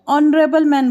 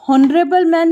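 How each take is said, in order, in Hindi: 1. शुरू की h ध्वनि मौन है। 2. शुरू की h ध्वनि बोली जाती है। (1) "हम लोग ऑनरेबल मैन बोल" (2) "हॉनरेबल मैन नहीं बोलेंगे"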